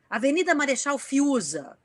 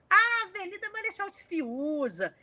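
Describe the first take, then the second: First: It is read in a plain, neutral way. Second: It is read in a funny, playful way.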